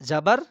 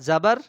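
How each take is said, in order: No difference in how they are said.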